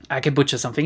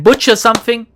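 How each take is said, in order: First: Said in the usual way. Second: Mock butchered accent. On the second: Shown as a demonstration.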